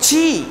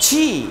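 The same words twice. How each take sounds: The two takes are said the same way.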